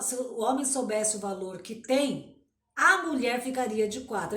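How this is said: The pause comes after the word 'tem'. The man is the one who has value. "se um homem lê, ele vai ler assim"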